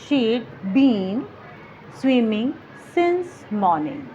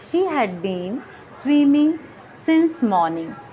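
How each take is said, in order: First: Had is shortened to a d sound. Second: The word had is said in full.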